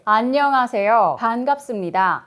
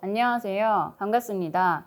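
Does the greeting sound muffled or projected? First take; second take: projected; muffled. First: It is pushed out openly with strong breath. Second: It is muffled, with lips barely moving. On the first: The air is felt right away. The speaker calls it right. "공기가 바로 이렇게 느껴집니다" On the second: No air reaches the listener. The speaker calls it wrong. "제가 복화수를 해볼게요"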